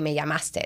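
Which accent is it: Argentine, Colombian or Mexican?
Mexican. It is said with a Mexican accent.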